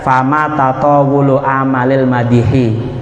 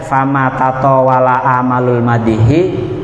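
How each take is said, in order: First: The vowels after tataw- and amal- are u and i. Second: The vowels after tataw- and amal- are a and u. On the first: The two nouns form a possessive construction. "Bener kabeh ya" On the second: The verb takes amal as its subject. "Bener kabeh ya"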